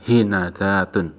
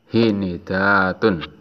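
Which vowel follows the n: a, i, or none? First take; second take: a; i. First: The n is followed by an a vowel. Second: The n is followed by an i vowel. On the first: "bisa dibaca fathah nunnya" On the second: "huruf nunnya dikasroh mengikuti haknya"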